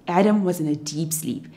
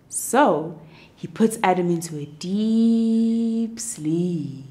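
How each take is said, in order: First: Said in the usual way. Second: Slow sleepy drawl. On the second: A narrator's reading. God puts Adam to sleep, slow and fading. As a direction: stretch it out slowly, fading into sleep.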